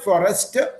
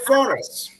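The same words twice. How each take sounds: First: It is said with strong mother-tongue influence. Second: It is said with a more neutral accent. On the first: The speaker calls it wrong. "don't say forest" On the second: The speaker calls it right. "you should say forest"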